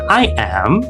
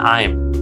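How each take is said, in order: First: It is said as two separate syllables. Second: It is said as one short syllable. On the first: The speaker calls it wrong. "bukan I am" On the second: The speaker calls it right. "kalau pengen fluent memang langsung aja I'm"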